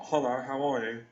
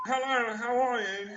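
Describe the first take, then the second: First: Low, smooth ladies' man hello; a hint of a suave pickup voice; sexy cool voice. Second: Higher, playful mock greeting; lightly voiced silly charmer; hammed-up hello.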